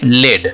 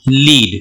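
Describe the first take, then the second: First: The vowel is a short 'eh' sound. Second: The vowel is a long 'ee' sound. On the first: It names a metal. "इसको बोलते हैं लेड" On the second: It means to guide a team. "अब L E A D इसको बोलेंगे लीड"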